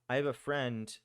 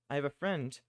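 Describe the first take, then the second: No difference in how they are said.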